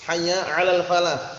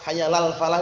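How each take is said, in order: First: A distinct 'ain sound starts the word 'ala. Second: The words run together with no 'ain sound. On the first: The speaker calls it right. "Jadi ditampakkan jelas itu ya" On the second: The speaker calls it wrong. "itu keliru"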